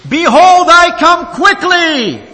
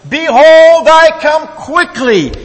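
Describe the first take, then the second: First: Much higher, loud, slow proclamation; vehement shout. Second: Very high, loud, slow shout; shouting with strength. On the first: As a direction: thunder the verse out, slowly. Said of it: "repeats his text with more vehemence". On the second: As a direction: bellow the verse with full force. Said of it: "for the third time with much strength". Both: Acted.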